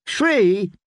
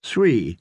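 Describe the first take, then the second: First: Put-on high, quick childish question; a greedy little boy haggling; eager child. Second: Said in the usual way. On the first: Boy bargaining for more tales.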